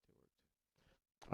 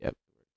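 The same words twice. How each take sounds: First: Breathy whisper, far from the mic. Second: Said in the usual way. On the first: Real, not acted. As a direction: whisper it under your breath. Whispered repeat.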